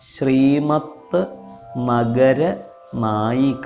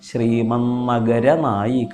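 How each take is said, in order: First: Two separate parts with a t sound. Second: One joined word with the t becoming n.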